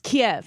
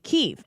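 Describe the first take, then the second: First: The city name is said the Russian way. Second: The city name is said the Ukrainian way. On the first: The speaker calls it wrong. "Kiev is the Russian pronunciation of that town" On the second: The speaker calls it right. "Kyiv is the Ukrainian pronunciation of the town"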